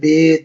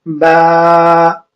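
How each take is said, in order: First: The letter name ends in an 'eh' vowel. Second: The letter name ends in an 'ah' vowel. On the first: The speaker calls it wrong. "वो अल्फ़ाज़ ना इस्तेमाल करें जो हमने बचपन में सिखाया गया था" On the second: The speaker calls it right. "मअरूफ़ पढ़ना है"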